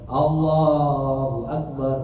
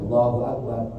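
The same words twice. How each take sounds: First: The phrase is said long and drawn out. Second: The phrase is said short and quick. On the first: It could be mistaken for bowing. The speaker calls it wrong. "bukan Allahu Akbar, bukan, supaya tidak dikira ruh" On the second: It signals going down to prostrate. The speaker calls it right.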